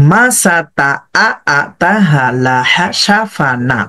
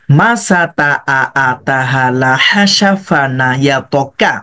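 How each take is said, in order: First: Joined reading. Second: Split reading. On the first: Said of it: "আগের পরের সাথে মিলিয়ে দেন". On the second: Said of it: "সুন্দরভাবে split করেন". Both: Shown as a demonstration.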